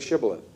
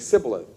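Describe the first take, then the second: First: The word begins with a 'sh' sound. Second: The word begins with an 's' sound. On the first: This is how the word is properly said. The speaker calls it right. "you couldn't say, say Shibboleth" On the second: The speaker is from Ephraim. The speaker calls it wrong. "You would say Sibboleth"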